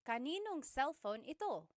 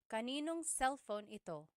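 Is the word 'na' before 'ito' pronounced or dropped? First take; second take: dropped; dropped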